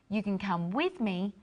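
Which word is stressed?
with. The stress is on "with".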